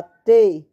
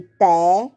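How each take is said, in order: First: T said "tê", closed like "tay". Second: Té with a wide open "eh". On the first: Teacher contrasting two sounds for pupils, closed tê. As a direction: hit T loud with a closed ê. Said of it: "e o som fechado". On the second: Teacher contrasting two sounds for pupils, open té. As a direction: punch té with an open vowel. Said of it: "O som aberto". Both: Shown as a demonstration.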